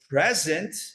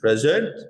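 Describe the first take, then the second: First: The word is said with a plain English accent. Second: The word is said with a put-on French accent.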